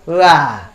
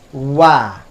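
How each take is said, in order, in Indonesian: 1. Bunyinya dibuat tanpa bibir dimonyongkan ke depan. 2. Bunyinya dibuat dengan bibir dimonyongkan ke depan. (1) "Kalau kita tidak memonyongkannya maka tak sempurna bunyinya" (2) "kita monyongkan atau kita panjangkan bibir ke depan"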